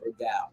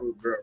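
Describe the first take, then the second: First: The last word is pronounced like 'gal'. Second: The last word is pronounced like 'girl'. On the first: The speaker calls it right. "Let me say it right" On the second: The speaker calls it wrong. "not Rude Girl"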